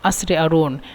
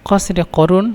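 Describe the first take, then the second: First: The q sounds become glottal stops. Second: The q sounds are pronounced fully. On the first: This is how Egyptians say it. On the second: This is the standard form.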